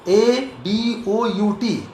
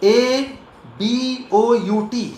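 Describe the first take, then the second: Both takes have the same delivery.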